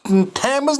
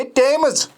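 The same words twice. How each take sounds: First: थैम्स with a th sound; wrong pronunciation. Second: टेम्स with a plain t, pitched up; correct pronunciation. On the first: Teacher shows students the wrong th sound. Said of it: "थैम्स नहीं है". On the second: Teacher stresses the right form to students. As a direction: say टेम्स with a hard t. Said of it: "ये टेम्स". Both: Shown as a demonstration.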